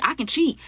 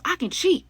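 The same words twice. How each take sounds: First: Defiant boast. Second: Cheat pitched far higher than the first "I can cheat"; shrill escalating boast. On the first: Callie telling Yami she can cheat, smug. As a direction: say it like you own the place. Callie's claim, first take. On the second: Callie repeating she can cheat, escalating higher. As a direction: push it up into a squeal. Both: Retold or imitated.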